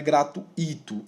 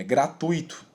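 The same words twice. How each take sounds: First: "gratuito" broken up as gratu-Í-to; wrong hiatus. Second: "gratuito" with stressed u, gra-TÚI-to; correct diphthong. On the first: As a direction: separate and stress the i in "gratuito". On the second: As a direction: glide ui as one syllable in "gratuito". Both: Shown as a demonstration. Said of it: "não torno um hiato ali no i".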